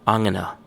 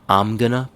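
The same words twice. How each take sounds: First: The phrase is more strongly reduced. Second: The phrase is only lightly reduced.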